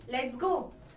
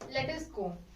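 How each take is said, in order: First: Let and us merge into one syllable. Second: Let and us are said as separate words. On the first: "it kind of sounds fluent" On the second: "instead of saying let us differently, separately"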